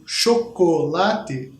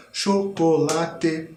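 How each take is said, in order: First: Chanted, chocolate spelled out slowly, one beat per syllable; slow syllable-timed chant. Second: Chocolate with a silent beat where cho falls; rest on cho. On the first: Chanted, teacher counting the rhythm aloud, slow and even. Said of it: "E se em vez de tocar as quatro notas". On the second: Teacher demonstrating the rest on the first syllable. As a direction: leave a gap, then colate in time. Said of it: "a gente só toca o colate". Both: Shown as a demonstration.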